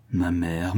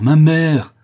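First: Restrained, distressed address; pained appeal. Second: Loud, high heartbroken shout; anguished cry. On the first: Son to his mother, restrained pained appeal. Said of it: "déchiré par cette horrible scène". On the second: Son torn by horrible scene, anguished shout. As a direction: cry out to stop them. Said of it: "s'écria Martial, déchiré". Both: A narrator's reading.

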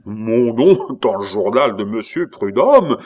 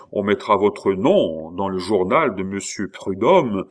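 First: Loud, incredulous echo; outraged exclamation. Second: Said in the usual way. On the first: A narrator's reading. Abbé hears his name would be printed, outraged exclamation. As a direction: throw the offer back as a scandalised cry. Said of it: "s'écria l'abbé".

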